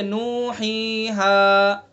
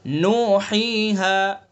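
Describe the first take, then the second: First: नूहीहा with the vowels held too long; wrong over-stretched recitation. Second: नूहीहा with each long vowel held one alif; drawn-out recitation. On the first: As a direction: drag out नूहीहा too much, as a mistake. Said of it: "ये गलत हो जाएगा, ज़्यादा खींच जाएगा". (नूहीहा को ज़रूरत से ज़्यादा खींचना) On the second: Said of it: "इस तरह से पढ़ेंगे". (नूहीहा को एक अलिफ खींचकर पढ़ना) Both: Shown as a demonstration.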